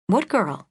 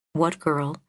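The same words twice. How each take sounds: First: Higher, startled question; surprised. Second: Said in the usual way. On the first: Acted. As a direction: catch the odd detail sharply. Iris startled by the remark.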